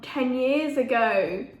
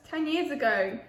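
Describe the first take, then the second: First: "ten years ago" drawn out slowly, years stretched; slow emphasis on ten years ago. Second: Said in the usual way. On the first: Real, not acted.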